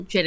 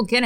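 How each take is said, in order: First: Fix it, say gin with a J; corrected gin. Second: Gin said with a hard g, like "gimme". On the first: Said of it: "Let me try this again". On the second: Reading an essay aloud, mispronouncing gin with hard g. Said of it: "Gin and tonic". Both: Real, not acted.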